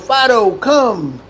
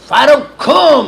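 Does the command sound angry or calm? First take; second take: calm; angry. First: The command is said in a calm tone. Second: The command is said in an angry tone. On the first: A simple request to come. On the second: The owner is now mad, changing the meaning.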